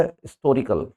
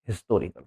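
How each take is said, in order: First: हिस्टोरिकल said as "istorical", no H; silent H. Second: हिस्टोरिकल with a spoken H; H sounded. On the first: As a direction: drop the H and start हिस्टोरिकल on the I vowel. (हिस्टोरिकल को "इस्टोरिकल" बोलें) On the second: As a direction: start हिस्टोरिकल on a clear H. (हिस्टोरिकल, एच की आवाज़ के साथ) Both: Shown as a demonstration. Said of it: "ना कि हिस्टोरिकल".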